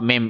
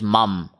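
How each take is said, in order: First: The vowel after m is an 'i' sound. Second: The vowel after m is an 'a' sound. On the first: The speaker calls it wrong. "meme has zabar, not zair. It is not mim" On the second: The speaker calls it right. "it is mum"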